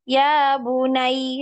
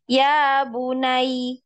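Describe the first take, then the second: No difference in how they are said.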